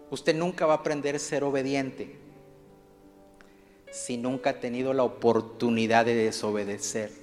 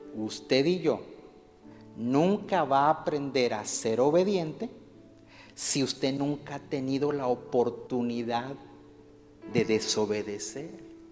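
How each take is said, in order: First: It is said at normal speed. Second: It is said more slowly.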